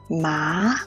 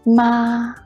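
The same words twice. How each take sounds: First: The pitch rises from mid to high. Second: The pitch stays high and level. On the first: "The second tongue is a rising tongue" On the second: "The first tongue is a high-level tongue"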